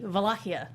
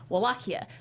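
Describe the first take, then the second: First: The word begins with a V sound. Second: The word begins with a W sound. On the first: This is the Romanian pronunciation. "It's a V" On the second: This is the English pronunciation. "in English it's Wallachia"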